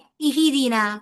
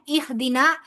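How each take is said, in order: First: An extra i vowel follows the h. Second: The h has no vowel after it. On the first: The speaker calls it wrong. "लेकिन आप उसको कह दें इही दीना... ये भी गलती होगी" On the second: The speaker calls it right. "अब यहां पर जज्म है, सुकून है"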